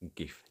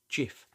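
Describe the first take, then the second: First: The G is hard, like in 'go'. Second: The G is soft, like a J sound. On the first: The G matches the word graphics. "Is it a hard G like GIF" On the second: This is how its creator intended it. "or a soft G like GIF as its creator originally intended"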